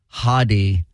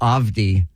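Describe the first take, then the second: First: The name is said without the V sound. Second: The name is said without the H sound. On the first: "Maybe it's the V" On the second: "Could be the H"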